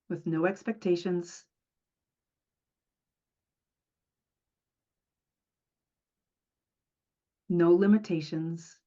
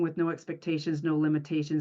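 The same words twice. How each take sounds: First: A breath is taken between the two phrases. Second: The phrases run together without a breath between. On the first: "I actually take a breath between each of those" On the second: "I don't say it that way when I do the mantra"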